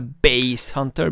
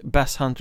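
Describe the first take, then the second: First: Bass is said with an ai sound, like bajs. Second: Bass is said with a plain a vowel.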